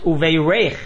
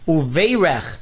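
First: The stress falls on the last syllable. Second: The stress falls on the first syllable. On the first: It is a verb meaning he has blessed them. "with the accent on the reish" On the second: It is a noun meaning there will be blessing. "with the accent on the Vase"

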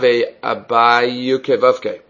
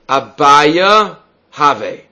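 First: It is said quickly with the words run together. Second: It is said slowly with a break between words.

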